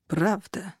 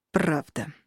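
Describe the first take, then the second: First: Monotone. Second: Reluctant, low, grudging mutter; through gritted teeth. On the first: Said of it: "монотонно ответил командир". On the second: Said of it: "процедить". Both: A narrator's reading.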